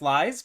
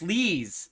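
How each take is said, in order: First: The name's vowel sounds like 'eye'. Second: The name's vowel sounds like 'ee'. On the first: The speaker calls it wrong. "that's clearly not how you pronounce it" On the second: The speaker calls it right. "the correct pronunciation"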